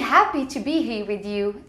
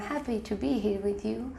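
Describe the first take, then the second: First: It is said warmly, with lively enthusiasm. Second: It is said flatly, without any enthusiasm. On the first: The speaker is believable. The speaker calls it right. "there's a bigger chance that you're gonna believe me the first time" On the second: The speaker is not believable. The speaker calls it wrong. "and not the second time"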